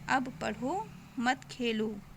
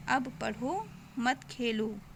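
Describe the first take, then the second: First: There is a pause right after 'padho'. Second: There is a pause right after 'padho'.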